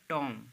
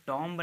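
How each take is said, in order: First: टॉम said as "toom", no b at the end; silent b. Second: टॉम्ब said with a clear b at the end; wrong b sounded. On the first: Teacher showing students the right pronunciation टॉम. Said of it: "इसे पढ़ेंगे आप टॉम". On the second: Teacher showing students the wrong pronunciation टॉम्ब. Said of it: "इसको टॉम्ब नहीं कहेंगे". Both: Shown as a demonstration.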